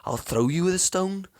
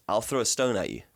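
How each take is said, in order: First: Put-on high, lilting try at a Cape Coloured accent. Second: Said in the usual way. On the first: Quoting a schoolyard saying, imitated Cape Coloured accent. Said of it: "I can't do the accent".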